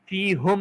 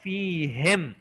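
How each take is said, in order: First: The vowel before the final m is u. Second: The vowel before the final m is i. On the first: The speaker calls it wrong. "फ़ीहुम नहीं कहा" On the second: The speaker calls it right. "उन्होंने कहा फ़ीहिम"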